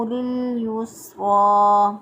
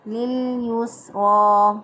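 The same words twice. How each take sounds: No difference in how they are said.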